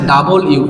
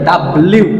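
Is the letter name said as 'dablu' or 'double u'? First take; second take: double u; dablu. First: The letter name is said fully as 'double u'. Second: The letter name is squeezed into 'dablu'. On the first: The speaker calls it right. "এটা হচ্ছে ডাবল ইউ, ইউ plus ইউ" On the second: The speaker calls it wrong. "আসলে অনেকে ডাব্লিউ বলে, এটা ডাব্লিউ, এটা ডাব্লিউ না"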